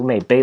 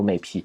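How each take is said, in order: First: The second syllable starts with a b sound. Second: The second syllable starts with a p sound. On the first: "not the Bei" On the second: "he wants the P there"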